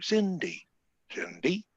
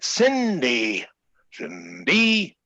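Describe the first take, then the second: First: It is said only slightly louder than normal. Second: It is said very loudly, extremely.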